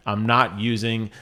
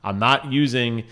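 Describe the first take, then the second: No difference in how they are said.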